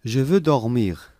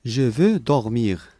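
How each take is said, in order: Both takes have the same delivery.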